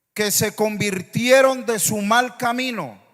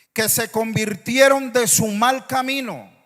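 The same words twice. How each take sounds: Both takes have the same delivery.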